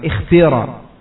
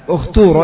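First: The first vowel is a pure i sound. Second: The vowels are pronounced as a rounded u sound. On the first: "kalau antum kasrah dengan kasrah yang khalisah maka ikhtira" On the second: "Jadi kalau antum baca ukhturo ya di dhammah karena ta-nya di sini dhammah"

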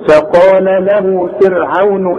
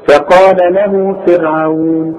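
First: The vowel is not lengthened and runs on. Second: The long vowel is held for two counts. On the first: The reciter continues without stopping. "مفيش مد عند الوصل" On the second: The reciter stops on the word. "حركتين"

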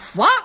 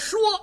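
First: It is said in Shandong dialect, like fo. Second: It is said in standard Mandarin. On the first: "念佛" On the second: "说话的说。他不念说"

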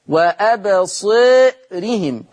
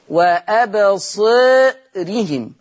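The two takes are said the same way.

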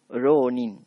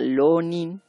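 First: It begins with a soft tapped r. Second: It begins with an l sound. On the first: "se pronuncia siempre como la R suave" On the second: "o bien como L. Entonces sería Lonin"

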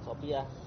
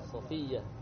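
First: The middle consonant is not an f. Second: The middle consonant is an f. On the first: The speaker calls it wrong. "Bukan Sofia" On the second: The speaker calls it right. "Pakai fa"

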